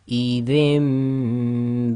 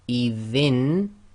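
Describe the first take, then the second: First: The word ends with a nasal m sound. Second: The word ends with a plain n sound. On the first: The speaker calls it right. "with iqlab we do ghunna, we have to say" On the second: The speaker calls it wrong. "instead of saying idhin"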